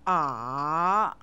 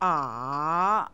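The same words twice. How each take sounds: First: The pitch dips down, then rises. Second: The pitch dips down, then rises.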